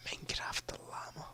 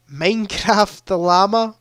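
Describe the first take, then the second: First: Breathy whisper, barely audible. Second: Said in the usual way. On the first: Acted. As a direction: whisper it like a secret. Repeats silly answer, whispered.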